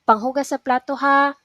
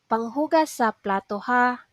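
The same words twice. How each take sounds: First: It is said at a regular pace. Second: It is said slowly.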